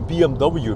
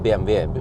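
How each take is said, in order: First: The letters are said with English letter names. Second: The letters are said with German letter names. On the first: This is the British way of saying it. "because that's British" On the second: This is the local way of saying it. "I keep saying B M W"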